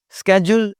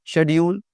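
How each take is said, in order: First: शेड्यूल said as "skedjul", with a hard sk; American "sked-jool" for शेड्यूल; शेड्यूल as an American would say it, "skedjul"; American pronunciation. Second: British "shed-yool" for शेड्यूल; शेड्यूल as a Briton would say it, "shedyool"; British pronunciation. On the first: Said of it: "American English में शेड्यूल". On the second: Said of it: "या शेड्यूल". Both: Shown as a demonstration.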